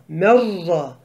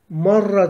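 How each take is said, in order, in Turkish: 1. İlk ünlü e sesine benziyor. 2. İlk ünlü a sesine benziyor. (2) "Marra değil yalnız"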